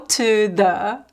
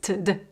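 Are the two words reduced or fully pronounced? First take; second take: fully pronounced; reduced. First: Both words are fully and carefully pronounced. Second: Both words are quick and reduced together. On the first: The speaker calls it wrong. "There is no to the" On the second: The speaker calls it right. "It's really quick"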